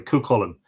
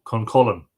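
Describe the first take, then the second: First: "Cuchulainn" with an open first syllable, koo-KULL-en; corrected pronunciation. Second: "Cuncullen" with an n closing the first syllable, like "Con"; variant pronunciation. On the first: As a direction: say "Cuchulainn" with "Coo" first, no n before the k. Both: Real, not acted. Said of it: "Sorry, Cuchulainn".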